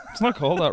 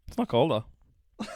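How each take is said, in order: First: "not" punched higher and louder; stress on not. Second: Laughing correction, slowed down. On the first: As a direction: hit "not" firmly, no laugh. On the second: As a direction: chuckle through the denial. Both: Real, not acted.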